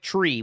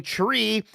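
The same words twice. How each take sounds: First: CH sound at the start of tree; tree as "chree". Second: Said in the usual way. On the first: Shown as a demonstration. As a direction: blur the T of tree into CH. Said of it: "pronounced more like tree". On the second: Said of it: "the T in".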